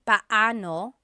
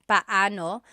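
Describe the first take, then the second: No difference in how they are said.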